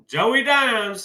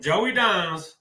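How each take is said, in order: First: Higher, punchy announcement of Joey Dimes; proud nickname. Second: Said in the usual way. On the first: Real, not acted. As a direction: introduce Joey Dimes like a star. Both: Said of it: "that's what I'm calling him".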